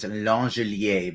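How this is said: The name is pronounced with a French sound. This is a joking French-style version of the name. "the Roto-Grinder's name is Langelier because he's a Frenchman"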